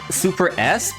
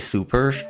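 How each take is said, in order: First: The S is spoken as a separate letter. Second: The S joins the word without a break. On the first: The speaker calls it wrong. "but it's not actually pronounced that way" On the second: The speaker calls it right. "It's specifically"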